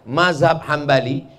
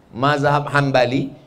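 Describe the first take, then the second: No difference in how they are said.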